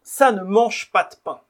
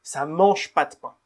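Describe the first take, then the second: First: The negative 'ne' is fully pronounced. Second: The negative 'ne' is dropped entirely.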